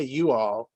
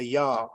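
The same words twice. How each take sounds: First: Said in the usual way. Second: "y'all" said as one blended Southern syllable; Southern "y'all" contracted from "you all". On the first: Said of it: "We don't say". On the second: Shown as a demonstration. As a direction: squeeze "y'all" into a single drawn-together word. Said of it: "We say".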